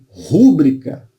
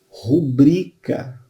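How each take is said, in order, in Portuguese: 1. A tônica está na primeira sílaba. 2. A tônica está na segunda sílaba. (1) "como proparoxítona" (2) "o certo é o quê?"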